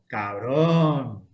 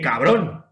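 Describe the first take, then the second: First: It is said in an admiring, impressed tone. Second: It is said in a startled, shaken tone. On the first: The friend bought an impressive car. "que puede decir, menudo coche te has comprado" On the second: The friend gave the speaker a big scare. "Que menudo susto me has dado"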